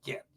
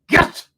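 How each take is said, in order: First: The word is said flatly, with little force. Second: The word is said forcefully, with strong energy. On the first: The speaker calls it wrong. "Don't say just get" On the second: The speaker calls it right. "You got to put a lot of energy in the"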